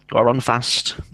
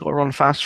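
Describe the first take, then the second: First: It is said in a rural Devon accent. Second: It is said in an aggressive chav accent. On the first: "my friends were Devonians, so they were all" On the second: "some of them were chavs as well, so it was like"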